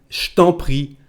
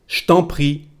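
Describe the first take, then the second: No difference in how they are said.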